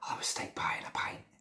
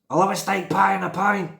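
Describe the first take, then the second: First: It is said in a whisper. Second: It is shouted loudly.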